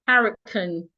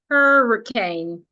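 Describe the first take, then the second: First: It is said with a British pronunciation. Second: It is said with an American pronunciation. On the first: "The British pronounce this word as hurricane" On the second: "The Americans pronounce it as hurricane"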